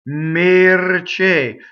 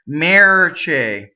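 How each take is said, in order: First: The first vowel is a closed e sound. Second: The first vowel is open, like English 'air'. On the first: The speaker calls it right. "And this is A A" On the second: The speaker calls it wrong. "I hear a lot rhymes with the English vowel when people sing it, and it's wrong. Chair or air"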